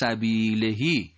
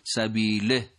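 First: The word ends with a lengthened vowel. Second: The word ends on a bare consonant. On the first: "اینجا اتفاقا اشباه می شود" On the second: "چون وقف می کنیم سبیله تلفظ می شود"

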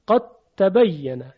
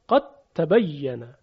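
First: The d merges completely into the following t. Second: The d merges completely into the following t.

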